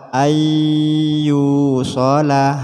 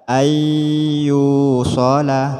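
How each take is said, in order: No difference in how they are said.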